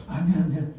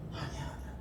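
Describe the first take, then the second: First: Said in the usual way. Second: Put-on 아니야 whispered softly, like hushing a child; hushed, comforting 아니야; soothing whisper. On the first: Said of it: "엉덩이 이렇게 두들겨주면서". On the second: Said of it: "하나님은요".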